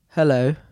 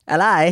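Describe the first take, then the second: First: It is said in a British accent. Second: It is said in an Australian accent. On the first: "give me a British hello" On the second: "Give me Australian"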